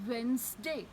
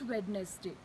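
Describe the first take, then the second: First: The d sound is left out. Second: The d sound is pronounced. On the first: The speaker calls it right. "the D in Wednesday is silent" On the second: The speaker calls it wrong.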